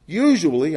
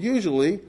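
First: Usually leaned on with a slight rise; a mild emphasis on usually, teacher style; stress on usually. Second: Said in the usual way. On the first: Shown as a demonstration. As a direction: lean into the word usually, rising gently. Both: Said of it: "I emphasize the word usually".

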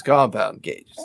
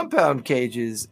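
First: "compound" dropped lower, drawn out slowly; second of two contrasted readings, "compound" low and falling; contrastive stress. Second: First of two contrasted readings, "compound" raised and slow; contrastive stress. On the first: Second kind of compound cages. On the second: Contrasts two kinds of compound cages. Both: Acted.

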